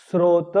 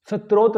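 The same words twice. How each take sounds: First: स्रोत with s straight into r: "srot"; स्रोत with clean "sr" start; correct pronunciation. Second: स्रोत as "sat-rot" with an inserted t; स्रोत with a vowel and t after s; mistaken pronunciation. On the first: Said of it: "इस प्रकार से उसको लिखें". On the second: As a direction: say स्रोत as "satrot". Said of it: "स्रोत ना बोलें". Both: Shown as a demonstration.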